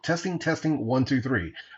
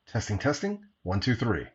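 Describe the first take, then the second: First: It is heard in a quiet room. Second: It is heard with crowd noise behind. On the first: "I'm indoors once again in a semi-quiet room" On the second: "some crowd noise applied"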